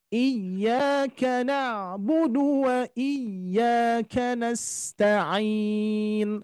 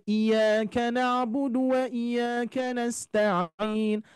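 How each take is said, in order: First: Very slow chant, y of "iyyaka" pushed; sung, stretch it out, jolting the doubled y; sung, correct recitation with nabr. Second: "iyyaka" spoken as light "iyaka" with no push; wrong reading without nabr. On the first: Teacher gives the correct reading after the wrong one, slow chant. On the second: Teacher shows the reading without nabr, unstressed. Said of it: "tidak diberikan nabar". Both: Shown as a demonstration.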